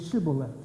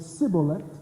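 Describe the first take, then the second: First: The word begins with an sh sound. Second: The word begins with an s sound. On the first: "the northern tribes were saying Shibolet" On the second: "the southern tribes were saying Sibolet"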